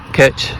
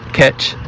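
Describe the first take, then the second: The two takes are said the same way.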